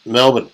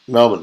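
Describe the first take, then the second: First: The city name is said the Australian way. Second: The city name is said the Australian way.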